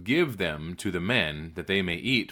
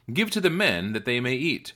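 First: Repeated command. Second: First command. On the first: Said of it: "So he repeated". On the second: Elisha tells his servant to feed the men, lifted command. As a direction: give the instruction with a lifted voice. First order, later repeated after doubt. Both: A narrator's reading.

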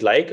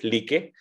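First: Like said as LYKE, one syllable; English pronunciation. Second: Like said as LEE-keh, two syllables; alternative pronunciation. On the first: Founder showing how some say the fund's name, English pronunciation. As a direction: say like to rhyme with bike. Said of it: "some people call it like". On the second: Founder showing how others say the fund's name, alternative pronunciation. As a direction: say like with a long ee and a final eh. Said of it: "others call it like". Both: Shown as a demonstration.

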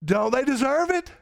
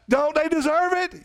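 First: Preacher pressing the crowd; pressing question. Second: Much higher and louder, demanding; preacher demanding an answer from the church; insistent question. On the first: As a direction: push the question harder at the church. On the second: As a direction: hammer the question home. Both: Real, not acted. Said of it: "hey, don't they deserve it?".

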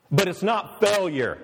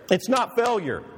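First: "not" leaned on, falling; stress on not. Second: "not" pushed higher and harder; stronger stress on not. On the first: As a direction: press the word "not" firmly. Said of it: "repeats with rising emphasis". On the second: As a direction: hammer "not" home, higher. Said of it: "repeat, higher and stronger". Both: Shown as a demonstration.

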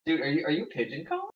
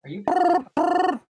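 First: Said in the usual way. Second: Squeaked much higher and louder; high squeaky voice. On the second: Pretend. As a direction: squeal the question.

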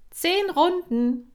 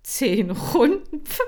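First: High, loud, slow coach command; commanding call. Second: High, loud, slow incredulous echo; scoffing disbelief. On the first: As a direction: bark out the count like a trainer. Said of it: "sagte Kira". (laut und hoch gerufenes Kommando) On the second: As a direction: repeat it as if it's a joke. Hamster staunt über Kommando. (ungläubig hoch und laut nachgefragt) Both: Acted.

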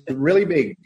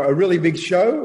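First: Ed Sullivan impression. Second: Said in the usual way. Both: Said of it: "as Ed Sullivan says".

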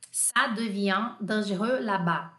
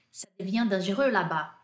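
First: Slow, evenly spaced French; slower model phrase. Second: Said in the usual way. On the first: Shown as a demonstration. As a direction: say it slowly for learners. Teacher repeats French phrase more slowly.

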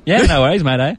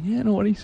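First: Broad, higher Australian reply; Aussie accent. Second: Higher, softer Australian reply; reply lightly in an Aussie accent. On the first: Guest passing as Australian at work, broad Aussie accent. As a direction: lay on the Aussie mateyness. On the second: Guest passing as Australian at work, soft Aussie accent. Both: Retold or imitated. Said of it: "I actually talk Australian and work".

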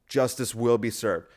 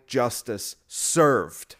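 First: Said in the usual way. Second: "Justice served" drawn out very slowly; mock solemn verdict. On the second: Mocking lefty threatens critics, "Justice served" dragged out very slowly. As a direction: stretch each word of "Justice served" like a grand pronouncement. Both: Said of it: "the compassionate people who would say".

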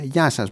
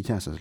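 First: Louder, set phone-operator hello; stock clerk greeting. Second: Said in the usual way. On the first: Retold or imitated. Operator answers her call in the stock clerk voice. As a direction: answer like every service clerk. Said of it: "έχουνε την ίδια φωνή". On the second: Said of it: "λέω εγώ".

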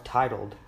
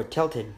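First: "titled" said as TIGHT-uld, wrong word; misread word. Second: "tilted" said TILL-ted, the right word; corrected word. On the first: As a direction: reads "titled" with the T sounds swapped. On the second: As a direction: fixes it to "tilted" with the L first. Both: Real, not acted. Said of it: "or tilted, my bad".

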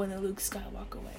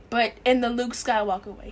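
First: "in the Luke Skywalker way" whispered, much softer. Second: Said in the usual way. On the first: Shown as a demonstration. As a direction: breathe it out in a whisper.

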